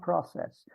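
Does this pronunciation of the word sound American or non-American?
American. The word is said in an American way. This is the form the group did not use. The speaker calls it wrong. "not process"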